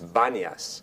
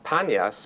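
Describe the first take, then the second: First: The name begins with a B sound. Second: The name begins with a P sound. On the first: This is the later Arabic form of the name. "the letter P is pronounced, pronounced like B" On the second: This is the older Greek form of the name. "it's not Panias"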